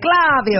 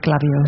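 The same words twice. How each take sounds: First: It is said in an Italian accent. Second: It is said in a Northern English accent.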